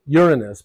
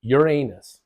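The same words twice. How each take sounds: First: Uranus said YUR-uh-nus, first syllable hit hard; stress on first syllable. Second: Uranus said yur-AY-nus, second syllable stressed. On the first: Teacher showing students the first-syllable stress, YUR-uh-nus. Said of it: "the emphasis is on the first syllable". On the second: Teacher showing the other way people say it, yur-AY-nus. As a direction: put the weight on the middle of Uranus, yur-AY-nus. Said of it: "emphasis on the second syllable". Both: Shown as a demonstration.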